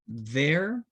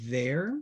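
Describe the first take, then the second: First: "there" repeated with the same "thair" sound; second "there" identical. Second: "there" said as a plain "thair"; "there" said plainly; same sound. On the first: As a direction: say "there" exactly as before. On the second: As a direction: give "there" its single standard sound. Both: Shown as a demonstration. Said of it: "La misma pronunciación".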